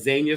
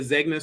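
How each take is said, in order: First: The middle has a soft ny sound. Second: The middle has a hard g sound. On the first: The speaker calls it right. "that's how you pronounce it" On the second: The speaker calls it wrong. "I'm sorry"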